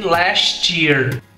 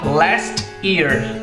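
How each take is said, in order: First: The t and y blend into a ch-like sound. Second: The two words stay separate with no blended sound. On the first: This is how Americans usually say it. "os americanos geralmente dizem last year" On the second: This is how Brazilian speakers tend to say it. "a gente tende a usar last year"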